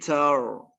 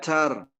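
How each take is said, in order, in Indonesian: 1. Bunyi r tebal dan berat. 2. Bunyi r tipis dan ringan. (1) "tapi tar tebal" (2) "Tidak tar"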